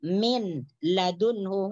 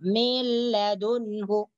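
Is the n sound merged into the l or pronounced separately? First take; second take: separate; merged. First: The n is pronounced clearly before the l. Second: The n merges completely into the following l. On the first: The speaker calls it wrong. "Itu salah" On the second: The speaker calls it right. "Nun mati tidak ada bunyi, langsung dimasukkan ke dalam huruf lam"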